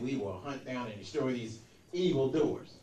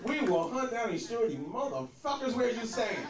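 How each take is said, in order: First: Low, deep George Bush voice; solemn presidential address, pitched down; Bush impression. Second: Mock tough president; hammed-up presidential declaration; presidential rewrite. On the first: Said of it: "the president that said". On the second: Shown as a demonstration. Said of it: "That sounds more presidential".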